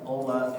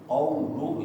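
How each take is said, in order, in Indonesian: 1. Vokalnya diucapkan tanpa membulatkan bibir. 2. Vokalnya diucapkan dengan bibir membulat. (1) "kalau dia malas memonyokkan bibir, ... enggak jelas" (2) "Misalnya ketika membaca juga qaulu"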